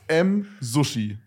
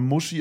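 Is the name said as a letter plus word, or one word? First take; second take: letter plus word; one word. First: The name is said as a letter, then a word. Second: The name is said as one blended word. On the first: The speaker calls it right. "Es ist M. Sushi. Also wahrscheinlich Sushi" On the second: The speaker calls it wrong. "ich spreche ihn immer Muschi aus, aber ich glaube nicht, dass er so ausgesprochen wird"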